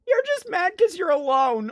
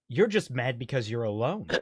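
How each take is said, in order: First: It is read in a put-on character voice. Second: It is read in an ordinary speaking voice.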